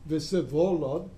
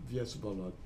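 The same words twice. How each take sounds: First: "Vsevolod" said slowly with the stress in the wrong place, rising at the end; misplaced stress. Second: "Vsevolod" quietly re-said with corrected stress, falling at the end; quick soft correction of "Vsevolod". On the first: Lecturer names the Russian princes but trips on one, careful and slow. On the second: Lecturer fixes his own misplaced stress for the class, quiet and quick. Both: Shown as a demonstration. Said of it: "I just misplaced one of them".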